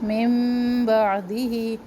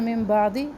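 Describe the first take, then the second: First: The nasal m sound is held long. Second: The nasal m sound is cut short. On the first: The speaker calls it right. "इनकी मिक़दार भी एक अलिफ के बराबर है" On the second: The speaker calls it wrong. "हमने इसकी मिक़दार को कम कर दिया"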